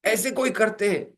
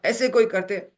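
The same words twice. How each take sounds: First: Husband starts scolding his wife, pitched up. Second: Husband shouting at his wife over the sari; angry shout. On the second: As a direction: yell it at her. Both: Retold or imitated. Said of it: "ये डांट रहा है".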